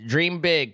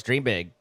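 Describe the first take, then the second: First: Dream big pitched higher with big hit hard and falling; cheerful dream big, big stressed high; big punch on big. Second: Dream big at normal pitch with Dream leaning and falling; calm Dream big, Dream stressed. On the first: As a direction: lift it and slam big. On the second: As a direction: settle it, weight on Dream. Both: Shown as a demonstration.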